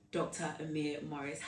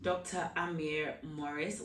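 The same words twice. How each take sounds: First: "Amir" with a weak, neutral first vowel, uh-MEER; Amir, first-guess pronunciation. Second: "Amir" with a full, open first vowel, AH-meer; Amir, corrected pronunciation. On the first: Host introduces the guest by name, "Amir" said as uh-MEER. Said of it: "Is it Amir or Amir?". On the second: Host re-introduces guest after being corrected, "Amir" said as AH-meer. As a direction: slowly, say "Amir" with a clear AH at the start. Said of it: "Amir, please forgive me". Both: Real, not acted.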